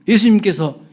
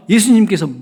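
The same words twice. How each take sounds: The two takes are said the same way.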